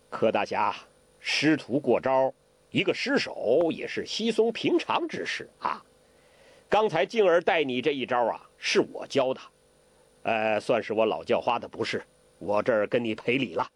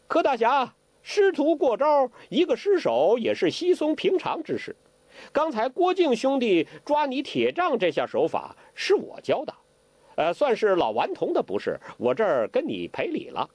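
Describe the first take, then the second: First: Put-on a touch of an old beggar's easy apology, lower; smooth things over as the old beggar; Hong Qigong, lightly voiced. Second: Put-on high, playful parroting of the old beggar; mock copycat apology. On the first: Hong Qigong makes peace with Ke, easy-going. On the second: Zhou Botong parrots Hong's apology to Ke, impish. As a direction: echo his words with impish glee, much higher. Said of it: "照葫芦画瓢的说".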